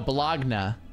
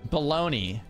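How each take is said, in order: First: The word ends with an ah sound. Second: The word ends with an ee sound. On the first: The speaker calls it right. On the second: The speaker calls it wrong.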